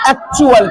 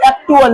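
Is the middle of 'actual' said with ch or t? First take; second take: ch; t. First: The middle has a ch sound. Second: The middle has a plain t sound. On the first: The speaker calls it right. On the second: The speaker calls it wrong.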